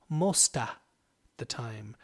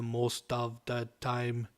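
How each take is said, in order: First: Most and of blend into one word, mosta. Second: Each word is pronounced separately and stiffly. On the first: The speaker calls it right. "We tend to compress the sound a little and we say mosta the time" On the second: The speaker calls it wrong. "We don't say most of the time like Arnold Schwarzenegger when he's the Terminator"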